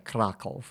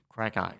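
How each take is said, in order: First: It is said like the Polish city's name. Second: It is said the local Australian way. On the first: The speaker calls it wrong. "the locals don't say Krakow" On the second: The speaker calls it right. "They say Krakow"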